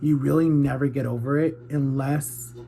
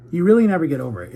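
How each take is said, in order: First: Said in the usual way. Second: Insisting it firmly and fast; emphatic louder, faster restart. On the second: Real, not acted. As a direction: punch REALLY out loud and quick. Restarts the line more emphatically.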